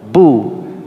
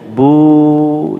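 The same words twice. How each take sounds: First: The vowel is held briefly. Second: The vowel is drawn out long. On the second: "Ketika dia panjang"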